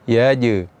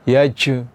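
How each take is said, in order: First: The final j is released crisply without air. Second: The final j is released with a puff of air. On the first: The speaker calls it right. "tapi yaj" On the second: The speaker calls it wrong. "jangan sampai kita mengucapkan huruf jim ini dengan keluar angin"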